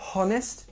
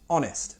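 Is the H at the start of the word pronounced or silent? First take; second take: pronounced; silent. First: The opening H sound is pronounced. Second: The opening H sound is silent. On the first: The speaker calls it wrong. "Not honest" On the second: The speaker calls it right. "The H is silent"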